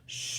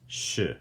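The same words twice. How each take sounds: First: The syllable has a tone that does not fall. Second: The syllable has a falling tone. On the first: It means ten. "Not to be confused with the other word sh, which means ten" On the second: It means is or am. "has a downward tone. So when you're saying it, it's sh"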